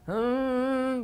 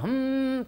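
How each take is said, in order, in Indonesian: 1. Mendengung dilakukan dengan bibir sedikit renggang. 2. Mendengung dilakukan dengan bibir dirapatkan. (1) "agak renggang sedikit"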